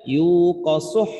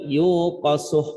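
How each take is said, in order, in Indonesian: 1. Suku kata terakhir naik sedikit dengan lepasan berdesah. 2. Suku kata terakhir tetap datar tanpa lepasan. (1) "suh naik ke atas sedikit, habis suh ada hah dikit" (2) "jangan dibaca cuman yuqasuh"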